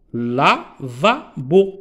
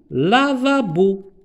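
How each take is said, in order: First: "Lavabo" slowly split into la, va, bo; syllable by syllable. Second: Said in the usual way. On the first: Shown as a demonstration. Teacher showing three syllables to new readers, "Lavabo" split la-va-bo. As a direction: break "Lavabo" into three separate beats. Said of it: "Ici, on a trois syllabes". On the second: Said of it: "Ici, on a trois".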